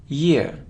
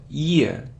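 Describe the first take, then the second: No difference in how they are said.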